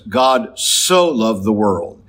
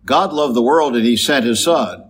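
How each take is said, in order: First: Slow, leaning hard on "so" in "God so loved the world"; stress on so. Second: Said in the usual way. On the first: Shown as a demonstration. Preacher showing the congregation the weight of "so". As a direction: draw out "so" and let it carry the line. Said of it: "This emphasis". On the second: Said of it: "It's not a matter of just saying".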